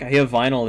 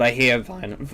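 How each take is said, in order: First: Said in the usual way. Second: Voice crack. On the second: Real, not acted. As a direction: voice cracking on vinyl. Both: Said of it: "nice voice crack".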